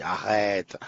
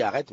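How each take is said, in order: First: « arrête » étiré, imitation amusée; imitation de Samira. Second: Said in the usual way. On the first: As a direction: fais traîner « arrête » comme une amie qu'on imite. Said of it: "j'entends sa voix qui dit arrête". (imiter une amie qui dit « arrête », en traînant) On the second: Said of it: "je lis arrête".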